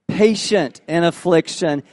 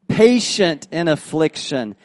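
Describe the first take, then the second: Both takes have the same delivery.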